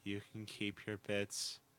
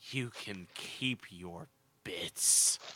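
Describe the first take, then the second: First: It is said flat, without emotion. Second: It is said with a lot of emotion.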